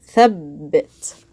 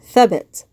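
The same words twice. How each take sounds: First: The b sound is held and doubled. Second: The b sound is short and single. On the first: "I want to put some extra stress on this ba" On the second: "if it was just a kasra here, it'd be"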